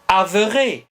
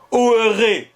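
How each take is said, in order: First: The word begins with a clear 'av' sound. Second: The word begins with an 'o' vowel sound. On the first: The speaker calls it right. "la présence du E indique que l'auteur prononçait, comme je l'ai dit d'ailleurs, avere" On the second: The speaker calls it wrong. "s'il prononçait O, oere, ça tient pas debout, c'est pas possible"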